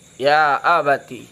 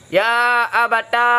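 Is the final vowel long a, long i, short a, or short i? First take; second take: long i; long a. First: The word ends in a long i vowel. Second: The word ends in a long a vowel. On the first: "bil ya dengan ya" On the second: "dan alif ya abata"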